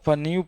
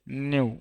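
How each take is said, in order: First: The word starts with a p sound before n. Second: The word starts directly with an n sound. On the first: The speaker calls it wrong. "पी जोड़ देगा तब पन्यू पढ़ेगा" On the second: The speaker calls it right. "पी silent हो गया है, खाली न्यू पढ़ना है"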